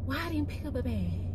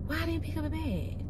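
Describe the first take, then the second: No difference in how they are said.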